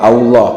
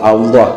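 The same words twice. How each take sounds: Both takes have the same delivery.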